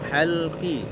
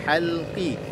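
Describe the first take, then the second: Both takes have the same delivery.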